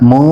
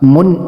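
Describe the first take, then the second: First: The n sound is hidden in the nose. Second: The n sound is pronounced clearly. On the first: The speaker calls it right. "மூ என்று சொல்வதுதான் நூனுடைய சத்தத்தை மூக்கில் மறைத்து" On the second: The speaker calls it wrong. "முன் என்று சொல்லாமல்"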